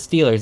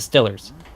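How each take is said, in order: First: It is said in a standard accent. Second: It is said in a Pittsburgh accent.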